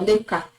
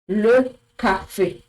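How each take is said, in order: First: The word ends without the 'ay' vowel. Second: The word ends in a high 'ay' vowel. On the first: The speaker calls it wrong. "If you hadn't seen this accent on it, it wouldn't have been le café" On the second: The speaker calls it right. "The sound becomes high"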